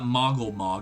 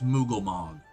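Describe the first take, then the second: First: The name begins with a short 'mog' sound. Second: The name begins with a long 'moog' sound. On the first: The speaker calls it wrong. "It's not Mogglemog" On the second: The speaker calls it right. "it's Mooglemog"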